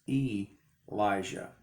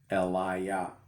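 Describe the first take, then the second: First: The name ends with a 'jah' sound. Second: The name ends with a 'yah' sound. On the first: The speaker calls it wrong. "Many, many, many say that this name is Elijah" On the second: The speaker calls it right. "L is the pronunciation"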